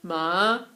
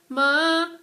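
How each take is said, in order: First: It is said with Mandarin's third tone. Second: It is said with Mandarin's second tone.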